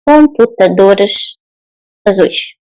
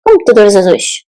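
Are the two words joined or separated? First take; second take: separated; joined. First: The two words are said separately. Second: The two words are joined together. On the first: The speaker calls it wrong. "We don't say" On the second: The speaker calls it right. "the words are going to come together"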